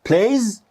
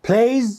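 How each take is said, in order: No difference in how they are said.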